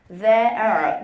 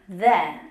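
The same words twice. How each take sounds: First: The final r sound is clearly pronounced. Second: The final r sound is dropped entirely. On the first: This is how we usually say it. "R 발음해죠" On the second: This is how the British recording says it. "이 R이 없어지면서 그냥 there 라고 발음을 했죠"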